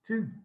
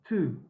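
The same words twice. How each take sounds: First: The t has no puff of air. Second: The t has a puff of air. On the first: "it doesn't sound properly like two" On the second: "with a puff of air"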